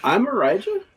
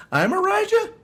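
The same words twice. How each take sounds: First: Rising questioning tune on "Arijah". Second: "Arijah" swept up very high like a big question; mock him by turning "I'm Arijah" into a squeaky question; teasing high rise on "Arijah" to parody a friend; mocking question tune. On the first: Real, not acted. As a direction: end "I'm Arijah" on an unsure upturn, as if asking. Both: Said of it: "He said that like it was a question".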